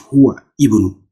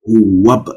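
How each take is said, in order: First: The second word starts with a separate i sound. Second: The two words run together without the i sound. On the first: The speaker calls it wrong. "Not huwa ibn" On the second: The speaker calls it right. "How are you going to pronounce? Huwab"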